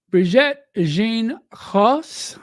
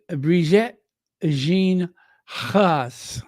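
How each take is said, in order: First: Said in the usual way. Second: Brigitte Jean Ross in a light, drawn-out French accent; mock French accent. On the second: Shown as a demonstration. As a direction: say the name slowly, the French way. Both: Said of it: "in my deepest French accent".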